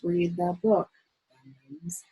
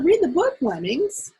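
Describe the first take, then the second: First: It is read in a flat, unexcited voice. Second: It is read in a lively, excited voice. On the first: The speaker calls it wrong. "you don't read it like this" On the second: The speaker calls it right. "You read it with excitement"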